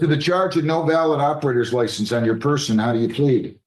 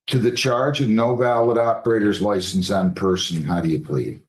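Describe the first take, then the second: First: It is said fast. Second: It is said slowly.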